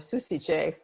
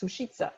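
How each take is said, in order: First: The name is pronounced with Italian-style sounds. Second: The name is pronounced with Czech-style sounds. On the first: "is the way I would pronounce it because I speak Italian" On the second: "I looked it up and it's"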